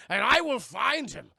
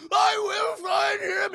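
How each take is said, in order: First: Rising threat. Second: High, loud, slow screamed vow; full scream. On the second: Zod's final vow to Laura, high slow scream. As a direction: stretch out every word at top volume. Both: Retold or imitated. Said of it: "he's just screaming it".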